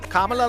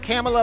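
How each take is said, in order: First: The first syllable rhymes with 'mama'. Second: The first syllable sounds like 'camel'. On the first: The speaker calls it right. "Kamala like Mamala" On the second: The speaker calls it wrong. "not Kamala like camel toe"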